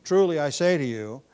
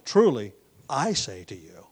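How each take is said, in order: First: "Truly" louder, leading the phrase; emphatic "Truly", lighter on the rest; stress on Truly. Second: "Truly" loud, then a weighty "I"; stress on I. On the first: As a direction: lean on "Truly" to get attention. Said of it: "it's partly for emphasis". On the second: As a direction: set off and stress "I" with authority. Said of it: "the emphasis is on the, his authority". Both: Shown as a demonstration.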